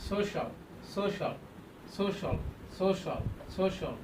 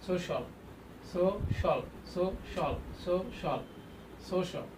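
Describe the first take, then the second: Both takes have the same delivery.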